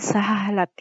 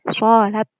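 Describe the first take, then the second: First: The first vowel is a plain a sound. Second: The first vowel is colored toward an o sound. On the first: "dibaca seperti kata salat kalau dalam bahasa Indonesia" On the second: "dibaca a-nya jadi o"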